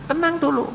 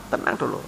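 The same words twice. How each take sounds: First: Calm down. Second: Soothing whisper. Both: Shown as a demonstration. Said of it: "kalau ada masalah tenang dulu".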